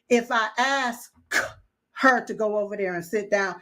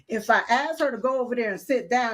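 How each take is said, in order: First: Said carefully, with the K in 'ask' pronounced. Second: Said fast, with the K in 'ask' dropped. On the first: The speaker calls it wrong. "it's just not going to sound right to Silk" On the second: The speaker calls it right. "it's very, very fine with me. It's fluently"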